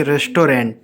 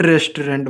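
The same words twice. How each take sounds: First: रेस्टोरेंट said as "rest-raant"; educated pronunciation. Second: रेस्टोरेंट said letter by letter, "res-to-rent"; the spelled-out रेस्टोरेंट with a full "rent"; wrong pronunciation. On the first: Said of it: "वो इसको ऐसे पढ़ेंगे". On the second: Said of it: "not रेस्टोरेंट". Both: Shown as a demonstration.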